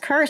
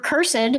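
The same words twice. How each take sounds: First: The word is said in a plain everyday way. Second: The word is said in a fancy, Latin-like way.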